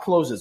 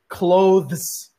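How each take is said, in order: First: The middle consonant is an s sound. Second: The middle consonant is a th sound. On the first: The speaker calls it wrong. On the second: The speaker calls it right.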